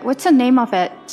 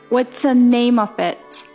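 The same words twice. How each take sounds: First: It is spoken at normal conversational speed. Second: It is spoken slowly and deliberately.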